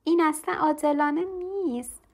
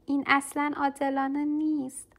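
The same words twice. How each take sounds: First: Put-on child's shout, higher and louder; loud protest. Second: Put-on a child's protest, only lightly raised; half-hearted shout of unfairness; mild shout. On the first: Lucy shouts at her mother about the changed class. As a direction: belt out the unfairness. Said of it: "لوسی با صدای بلند گفت". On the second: Lucy protests the change, a mild shout. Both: A narrator's reading.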